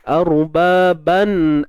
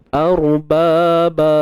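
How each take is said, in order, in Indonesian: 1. Kata itu berakhir dengan bunyi n. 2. Kata itu berakhir dengan vokal a panjang. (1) "Kalau kita tak berhenti" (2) "tapi kita berhenti kan?"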